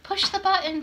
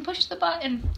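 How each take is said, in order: First: Higher, pushy call from the crowd; impatient call. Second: The repeat, still higher and insistent; repeated impatient call. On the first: Strangers behind her on the train urge her, calling higher. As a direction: bark it like an impatient commuter. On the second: The crowd repeats their call to the stuck woman, pushy. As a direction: say it again, fed up. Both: Retold or imitated. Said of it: "people behind me saying".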